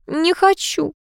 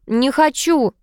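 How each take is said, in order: First: High, plaintive whine; whining. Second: High, petulant refusal; capricious. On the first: Niece refusing to look in the mirror, whining. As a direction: whine it out, pitched well up. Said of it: "заныла та". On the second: Niece refusing to smile for aunt, capricious. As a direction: refuse like a spoilt child, pitched up. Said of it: "капризно ответила племянница". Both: A narrator's reading.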